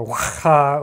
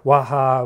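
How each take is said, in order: First: Waha with a throaty kh in the middle; Waha, slow, with a foreign-style guttural h; alternative pronunciation. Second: Waha, slow, with a light English h; alternative pronunciation. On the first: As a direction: say Waha slowly, rasping the h like Spanish j. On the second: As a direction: say Waha slowly, breathing the middle h. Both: Shown as a demonstration. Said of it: "I don't know how her name is pronounced".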